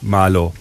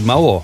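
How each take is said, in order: First: The middle consonant is a plain L sound. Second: The middle consonant sounds like a W. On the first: The speaker calls it wrong. "nicht malo" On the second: The speaker calls it right. "sagt sie Mauer"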